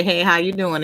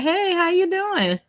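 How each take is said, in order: First: Said in the usual way. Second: High, drawn-out friendly hello; hallway greeting. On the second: Retold or imitated. Woman greeting coworker in the hallway, high sing-song hello. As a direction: stretch the hey way up high.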